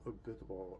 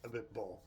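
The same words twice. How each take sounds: First: Abiteboul said as a-bi-te-BOOL, four syllables; wrong pronunciation. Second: Abitbol said as a-beet-BOLE, three syllables; correct pronunciation. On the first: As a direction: Abiteboul with every vowel sounded out. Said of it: "I'll get the proper pronunciation". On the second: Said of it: "I'm about to get it right here". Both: Shown as a demonstration.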